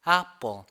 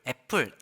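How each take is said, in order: First: The first vowel sits between 'a' and 'e'. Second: The first vowel is a clear 'e' sound. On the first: The speaker calls it right. "아와 에의 중간 발음" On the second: The speaker calls it wrong. "에 완전히 에로 부리는 발음을 하잖아요"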